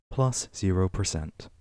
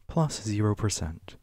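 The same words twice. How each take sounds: The two takes are said the same way.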